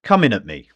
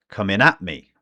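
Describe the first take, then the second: First: "Coming at me" with the accent on the start of "Coming"; stress on COMING. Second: "at" carries the weight, "Coming" stays light; "Coming at me" with the stress moved onto "at". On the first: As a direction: punch the first syllable of "Coming". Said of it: "when the intonation is on the first syllable". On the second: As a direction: lean on the vowel of "at" in "Coming at me". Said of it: "the intonation is here around the vowel sound, at". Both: Shown as a demonstration.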